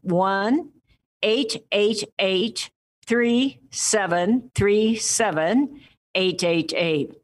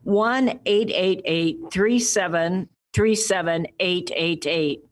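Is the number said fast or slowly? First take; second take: slowly; fast. First: The number is said slowly, in separated groups. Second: The number is said at normal, quicker speed.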